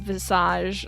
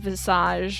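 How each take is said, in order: First: It is pronounced with a French sound. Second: It is pronounced with a French sound.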